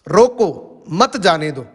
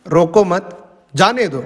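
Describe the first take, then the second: First: The pause comes right after 'roko'. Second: The pause comes after 'mat'.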